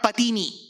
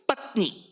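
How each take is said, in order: First: The middle vowel is kept, giving three syllables. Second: The middle vowel is dropped, giving two syllables. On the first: The speaker calls it wrong. "not patini" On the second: The speaker calls it right. "So it's patni"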